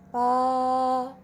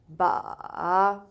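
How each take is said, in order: First: It is said with the first tone. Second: It is said with the third tone. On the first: "the first tone" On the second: "Third one"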